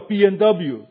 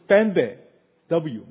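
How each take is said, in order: First: The last letter is said as double-u. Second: The last letter is said as vay. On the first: This is how English speakers say it. "然后我们叫BMW" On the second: This is how Germans say it. "德国人说是BMW"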